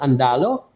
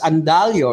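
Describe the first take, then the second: First: No glide comes before the final vowel. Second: A 'y' glide comes before the final vowel. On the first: The speaker calls it wrong. "It's not Andalo" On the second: The speaker calls it right. "It's Andalio, right?"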